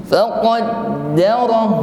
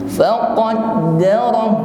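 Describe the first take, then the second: Both takes have the same delivery.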